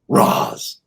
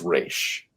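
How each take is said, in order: First: The name ends with a 'z' sound. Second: The name ends with a 'sh' sound. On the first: The speaker calls it wrong. "it doesn't even sound right" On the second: The speaker calls it right. "It's Raish"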